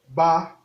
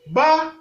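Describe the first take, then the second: First: The syllable has a mid level tone. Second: The syllable has a high level tone. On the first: "Ton moyen" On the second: "Ton haut"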